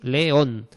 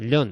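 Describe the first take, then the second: First: The two vowels are split into two syllables. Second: The two vowels merge into one syllable. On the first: The speaker calls it right. "hay que separarlo, son dos sílabas" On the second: The speaker calls it wrong. "no podemos decir león"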